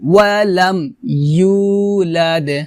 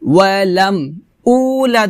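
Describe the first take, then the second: First: The second word starts with a y-glide before u. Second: The second word starts with a plain u vowel. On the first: The speaker calls it right. "ইউ জিহ্বার মধ্যখান উপরে তালুর সঙ্গে লাগিয়ে উচ্চারণ করতে হবে" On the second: The speaker calls it wrong. "ওয়ালাম উলাদ হবে না"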